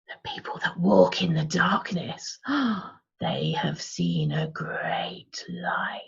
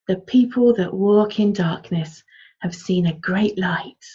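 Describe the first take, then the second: First: It is said in an eerie, unsettling tone. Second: It is said in a warm, soothing storytelling tone. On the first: "What about creepy?" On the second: "warm and fuzzy"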